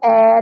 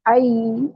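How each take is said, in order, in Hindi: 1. स्वर एक सादा 'e' ध्वनि है। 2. स्वर 'a' से 'i' की ओर नरमी से फिसलता है। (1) "इसको ए नहीं पढ़ेंगे" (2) "आई ऐसे पढ़ेंगे"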